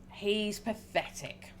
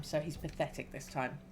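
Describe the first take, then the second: First: Drawn out, slow and scornful; slow dismissive line. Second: Said in the usual way. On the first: Shown as a demonstration. Player reads the chosen dialogue option, slow and scornful. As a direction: let each word drag with contempt.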